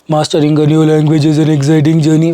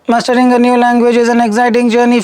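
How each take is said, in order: First: The voice is very low and thick. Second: The voice is thinner and higher in pitch. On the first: The speaker calls it wrong. "a pitch of less than one twenty with a very thick voice" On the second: The speaker calls it right. "bringing the pitch up... This would be one seventy"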